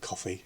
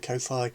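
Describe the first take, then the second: First: The name sounds exactly like 'coffee'. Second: The name does not sound like 'coffee'. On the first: This may be the intended pronunciation. "Could be supposed to be pronounced Coffee" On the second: This is how the speaker usually says it. "I think it's I say Ko-Fi"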